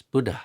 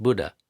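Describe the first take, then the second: First: "Buddha" with a puff of air after the d; aspirated Buddha. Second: "Buddha" with an unaspirated d; plain English "Buddha", no puff; wrong Buddha. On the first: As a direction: breathe out on "dha" in "Buddha". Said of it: "there's a little bit of air". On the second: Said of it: "It's not Buddha". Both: Shown as a demonstration.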